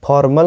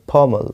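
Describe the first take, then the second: First: फॉर्मल with a sounded R; wrong pronunciation. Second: फॉर्मल without any R; correct pronunciation. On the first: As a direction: say फॉर्मल as "for-mal", hitting the R. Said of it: "फॉर्मल नहीं". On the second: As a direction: say फॉर्मल as "faw-mul", R dropped. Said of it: "फॉर्मल नहीं, फॉर्मल". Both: Shown as a demonstration.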